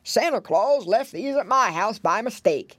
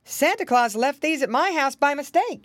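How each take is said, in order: First: Put-on old pig voice; wavering, slurred grandfather character; Grandpa Squealer. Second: Put-on higher-pitched old rabbit gentleman; lightly voiced visitor explaining himself; clear, lifted character voice; Uncle Wiggily. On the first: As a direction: explain it as the oldest pig. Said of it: "there stood Grandpa Squealer". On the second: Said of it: "there stood Uncle Wiggily Longears". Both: A narrator's reading.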